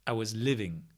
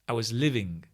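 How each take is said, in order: Both takes have the same delivery.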